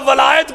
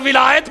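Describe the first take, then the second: First: The first vowel is an open 'a' sound. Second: The first vowel is a short 'i' sound. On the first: It would mean taking Ali as Lord. "वाओ के ऊपर जबर फतह" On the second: It would mean taking Ali as rightful successor. "वाओ के नीचे कसरा जेर"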